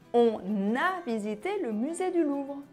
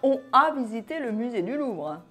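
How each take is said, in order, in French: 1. « On » est lié à la voyelle par un n. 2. « On » se prononce sans liaison avec la voyelle.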